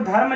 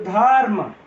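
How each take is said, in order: First: The r joins straight onto the m. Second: A short a vowel separates the r and m. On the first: "यह र आधा था" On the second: "यहां पर बीच में अ आ गया"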